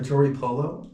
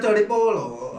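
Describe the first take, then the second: First: It is said with an English pronunciation. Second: It is said with a Spanish pronunciation.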